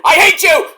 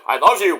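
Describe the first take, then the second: First: High, loud mock snarl; mock angry. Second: Said in the usual way. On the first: Tag partner yelling at the other, high and loud. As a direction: spit it out like a bickering partner. Alternating hate and love.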